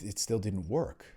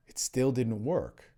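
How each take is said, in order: First: Slow and soft, "work" lifted up like a question; quiet rising repeat. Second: Slow, with weight on "still" and a falling close; settled final repeat. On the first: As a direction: let "it still didn't work" hang unresolved. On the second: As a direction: land "It still didn't work" with a firm downward finish. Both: Real, not acted.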